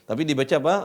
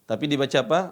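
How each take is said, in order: Both takes have the same delivery.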